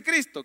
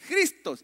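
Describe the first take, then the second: First: Said in the usual way. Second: "Cristos" with a J sound at the start, pitched high; Greek pronunciation. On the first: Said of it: "¿Y qué quiere decir Cristo?". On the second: Shown as a demonstration. Pastor recalling the original for the church, "Cristos" said with initial J. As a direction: pronounce "Cristos" as "Jristós". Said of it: "¿cómo decía el original?".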